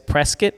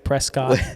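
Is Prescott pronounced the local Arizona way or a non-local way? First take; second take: local; non-local. First: It is pronounced the way Arizona locals say it. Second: It is pronounced differently from the local way. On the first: This is how residents of the area say it. "what Arizona people say is Prescott" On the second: This is how an outsider says it. "but I still say Prescott"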